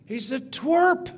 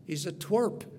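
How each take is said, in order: First: Twerp said higher and louder; emphatic. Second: Said in the usual way. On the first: Shown as a demonstration. Preacher stressing how small David looked, loud and high. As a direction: punch twerp with scorn. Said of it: "compared to Goliath". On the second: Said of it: "He's a twerp compared to Goliath".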